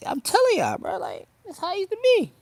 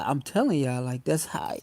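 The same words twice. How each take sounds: First: Pitched way up, a silly high voice; mock high-pitched voice with a louder finish; high put-on voice. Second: Said in the usual way. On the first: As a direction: jump up high and say it playfully. Same words redone in put-on voice.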